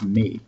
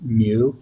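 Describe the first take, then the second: First: The word sounds like 'mee', with a front vowel. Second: The word sounds like 'mew', with a y-glide. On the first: "the actual way to pronounce it in Greek" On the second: "like a cat"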